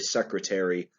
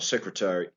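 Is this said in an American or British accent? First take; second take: American; British. First: It is said in an American accent. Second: It is said in a British accent. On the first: "in American English, it's airy" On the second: "British English, they say something like"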